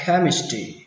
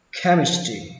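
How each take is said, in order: Both takes have the same delivery.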